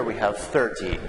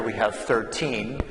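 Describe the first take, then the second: First: Thirty with stress on THIR, falling. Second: Put-on thirteen with stress on TEEN. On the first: Teacher modelling thirty for students, stress on THIR. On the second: Teacher modelling thirteen for students, stress on TEEN. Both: Shown as a demonstration. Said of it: "So the stress is different".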